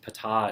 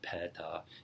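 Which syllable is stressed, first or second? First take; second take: second; first. First: The stress is on the second syllable. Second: The stress is on the first syllable. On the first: The speaker calls it right. "the emphasis is on the second second syllable" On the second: The speaker calls it wrong. "It's not peta"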